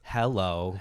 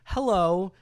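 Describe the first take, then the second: First: It is said in a flat, emotionless drone. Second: It is said with lively, expressive intonation. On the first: "flat droning like the the way the guy says it is so emotionless" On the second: "I like her inflection"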